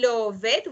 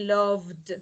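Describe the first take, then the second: First: The ending is an extra syllable, like 'it'. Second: The ending is a bare d, one syllable. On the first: The speaker calls it wrong. "We never say love it" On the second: The speaker calls it right. "we say loved"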